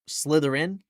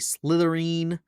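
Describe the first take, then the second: First: The ending is a short 'in' sound. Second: The ending rhymes with nectarine. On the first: The speaker calls it right. "rather than Slytherin" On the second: The speaker calls it wrong. "like it's a nectarine"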